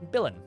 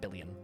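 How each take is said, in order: First: The word ends with a short 'in' sound. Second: The word ends with a 'yun' sound. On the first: The speaker calls it right. "Billin, not billion" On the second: The speaker calls it wrong. "not billion"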